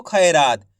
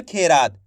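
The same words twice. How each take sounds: First: खैरात with open gliding "khai"; correct "ai" vowel. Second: खेरात with a pure long "khe"; wrong "e" vowel. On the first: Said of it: "इसी तरीके से पढ़ना आपको". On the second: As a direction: say खेरात as "khay-raat", no glide. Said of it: "ऐसे नहीं पढ़ना". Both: Shown as a demonstration.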